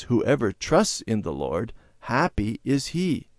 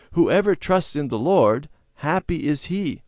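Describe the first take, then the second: First: Said in the usual way. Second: Higher, louder sing-song recitation; children reciting. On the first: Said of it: "Bible verse quoted". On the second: A narrator's reading. Children repeating the Bible verse together, chanting. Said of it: "the children repeated the words together".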